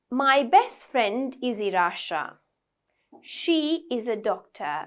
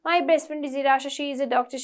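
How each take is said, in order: First: There is a longer pause between sentences. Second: The sentences run together without pauses.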